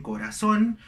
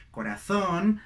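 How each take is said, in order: First: "corazón" with an s for the z; seseo, not European. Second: "corazón" with th for the z; European Spanish. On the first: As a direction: say "corazón" as corasón. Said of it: "ellos no dicen". ("corazón" con S, sin ceceo) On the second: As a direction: lisp the z in "corazón", Castilian style. ("corazón" con Z castellana) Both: Shown as a demonstration.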